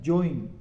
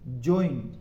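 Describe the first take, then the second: First: ज्वाइन said join with oi, not jwain; the right ज्वाइन, j-oin; correct version. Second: ज्वाइन said join, a low drawn oi; ज्वाइन again as j-oin, lower pitch; repeat correct version, lower. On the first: Teacher giving the correct join. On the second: Teacher repeating the correct join. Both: Shown as a demonstration. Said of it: "वो actual में आपका क्या है".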